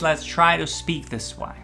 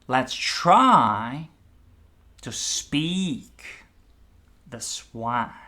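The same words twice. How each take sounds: First: It is said plainly, without strong emphasis or pauses. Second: Words are emphasized, with pauses between phrases.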